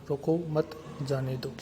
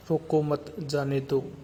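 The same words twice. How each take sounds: First: रोको set apart by a short break before मत जाने दो; pause after रोको. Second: Slow, with रोको मत run together, then a break before जाने दो; group it as "रोको मत", pause, "जाने दो"; pause after मत. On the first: Teacher shows the other meaning of the sentence, pause after रोको. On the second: Teacher shows how a pause changes meaning, pause after मत. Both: Shown as a demonstration. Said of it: "अर्थ का अनर्थ हो जाता है".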